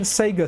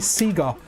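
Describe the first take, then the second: First: It is said with an American pronunciation. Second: It is said with a British pronunciation. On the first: The speaker calls it wrong. "instead of saying Sega" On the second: The speaker calls it right. "my British roots of saying words like that"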